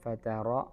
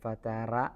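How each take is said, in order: First: The r sound is heavy and full. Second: The r sound is light and thin. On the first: The speaker calls it right. "الراء تفخيم ചെയ്യാനുണ്ട്" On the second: The speaker calls it wrong. "എന്നാവാതെ"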